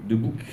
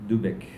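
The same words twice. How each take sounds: First: "Debouc" ending in "ouc"; corrected pronunciation. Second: "Debec" ending in an "ec" sound; mistaken pronunciation. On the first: Presenter repeats the publisher's name as corrected, corrected pronunciation. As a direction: say "Debouc", with an "ou" before the final k. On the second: Presenter misreads the publisher's name, mistaken pronunciation. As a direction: say "Debec", with an e before the final k. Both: Real, not acted. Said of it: "Ça se prononce Debouc".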